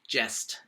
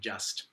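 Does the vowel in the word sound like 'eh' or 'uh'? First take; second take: eh; uh. First: The vowel is an open 'eh' sound. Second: The vowel is the usual 'uh' sound.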